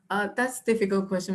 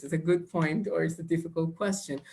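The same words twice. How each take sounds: First: Quick stalling candidate answer; hesitant examinee. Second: Said in the usual way. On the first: Shown as a demonstration. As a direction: stall for time like a nervous student. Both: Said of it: "don't use these two words".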